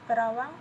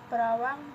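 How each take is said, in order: Both takes have the same delivery.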